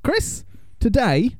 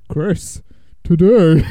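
First: It is said in a normal voice. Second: It is said in a deep, manly voice.

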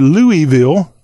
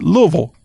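First: It is said as three syllables, louie-ville. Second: It is said with two syllables, luh-vul.

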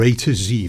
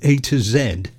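First: The last letter is said the American way, zee. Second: The last letter is said the British way, zed.

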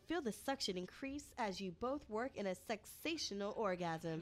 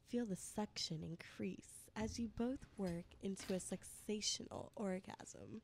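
First: It is read in a plain reading voice. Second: It is read in a put-on sexy voice.

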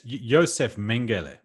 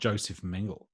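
First: The name has a non-English pronunciation. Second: The name has an English-style pronunciation. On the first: The speaker calls it right. "it's Joseph Mengele" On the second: The speaker calls it wrong. "I was giving it the Anglo pronunciation"

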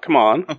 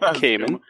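First: The first syllable sounds like 'come'. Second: The first syllable sounds like 'cay'. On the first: The speaker calls it wrong. "Not come on" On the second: The speaker calls it right. "I've been listening to the audiobook, so I can fill in here"

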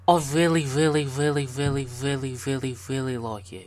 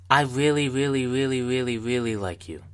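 First: It is said in a put-on British accent. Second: It is said in the speaker's usual accent.

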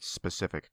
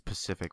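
First: The word begins with an s sound. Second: The word begins without the s sound. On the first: The speaker calls it right. "ever said specific correctly" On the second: The speaker calls it wrong. "It's always specific with you"

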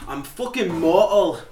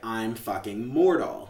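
First: It is said imitating the characters' thick dialect. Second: It is said in her own normal accent.

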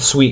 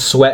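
First: The vowel is a long 'ee' sound. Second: The vowel is a short 'eh' sound. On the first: The speaker calls it right. "they said Sweet" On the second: The speaker calls it wrong. "I said Sweat"

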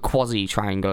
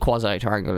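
First: It is said in a British way. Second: It is said in a non-British way.

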